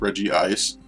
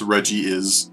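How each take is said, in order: First: It is said with three syllables, ending in ice. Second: It is said with three syllables, ending in is. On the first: The speaker calls it wrong. "I used to think Regice was pronounced Reggie Ice" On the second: The speaker calls it right. "It's pronounced Reggie is"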